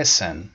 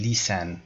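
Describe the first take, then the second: First: "listen" with a brief, lax first vowel; correct short i. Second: "listen" mispronounced as "leesen"; wrong model of "listen" with long ee. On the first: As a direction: keep the i in "listen" short, never ee. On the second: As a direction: stretch the first vowel of "listen" into ee. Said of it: "نمیگم listen". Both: Shown as a demonstration.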